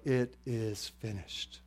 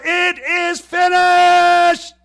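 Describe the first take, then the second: First: Soft, slow restatement; hushed quote. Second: Huge, drawn-out high scream. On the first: Retold or imitated. Preacher recalling the three words screamed out, now hushed. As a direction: say it slowly and softly, letting it settle. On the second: Acted. Jesus screaming his last words from the cross, full-force scream. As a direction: scream each word slowly at full power. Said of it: "He screams out".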